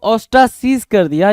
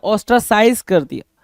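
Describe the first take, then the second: First: "ostracize" with a long ee in the last syllable; "ostracize" ending in -seez. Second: "ostracize" with an eye vowel in the last syllable; "ostracize" ending in -size. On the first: Teacher giving students the first reading, "ostracize" said os-tra-seez. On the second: Teacher giving students the second reading, "ostracize" said os-tra-size. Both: Shown as a demonstration. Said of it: "दोनों word में बोल रहा हूँ".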